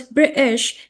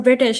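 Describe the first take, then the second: First: BRITISH with the T dropped, a catch in its place; British pronunciation. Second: Said in the usual way. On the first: Shown as a demonstration. Fascinated learner showing a friend how British people say British, T dropped. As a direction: say British as Brits do, T swallowed. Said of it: "how they pronounce British". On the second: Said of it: "instead of British".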